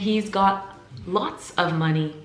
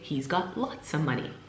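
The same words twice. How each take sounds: First: Both words, lots and of, are said in full. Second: Lots of is reduced to one word, lotsa. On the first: "Instead of saying" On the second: "I just say"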